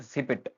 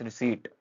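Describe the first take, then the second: First: A p sound is pronounced in the middle. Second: No p sound is pronounced in the middle. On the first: The speaker calls it wrong. "It's not रिसिपिट" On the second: The speaker calls it right. "पी silent रहता है"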